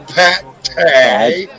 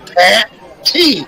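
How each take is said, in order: First: The last syllable ends with an ay sound. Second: The last syllable ends with an ee sound. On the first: The speaker calls it wrong. "Not Pat Tay" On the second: The speaker calls it right. "T E E is the T"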